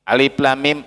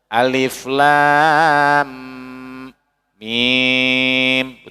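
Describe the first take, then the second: First: The lam is cut short, not fully read. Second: The lam is fully read out. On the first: The speaker calls it wrong. "salah katanya itu kan" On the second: The speaker calls it right. "Lamnya harus baca"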